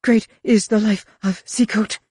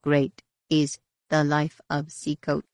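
First: Urgent, higher, louder recitation; hasty prayer. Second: Chanted, slow, measured ritual intoning; low chant. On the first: Roel backing away from Mara, hasty prayer. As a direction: pray it out quickly and fearfully. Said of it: "he whispered hastily, as though in prayer". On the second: Crowd around them honoring Seacoat, slow low chant. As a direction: chant it evenly and unhurriedly. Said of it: "A low chant came from the combined voices". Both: A narrator's reading.

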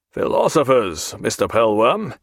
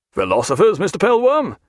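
First: Measured, level statement of the words; beginning a lecture. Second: Incredulous question, leaping up on the name; taken aback. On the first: Captain begins answering the seaman, measured and firm. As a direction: start in firmly, as if more will follow. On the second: Captain challenges seaman's jibe about philosophers, taken aback. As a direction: throw the word back in astonishment. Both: A narrator's reading.

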